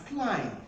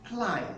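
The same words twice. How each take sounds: Both takes have the same delivery.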